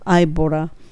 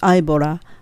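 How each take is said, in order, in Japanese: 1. 'bought'の t は、軽い L の音に聞こえます。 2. 'bought'の t は、軽い L の音に聞こえます。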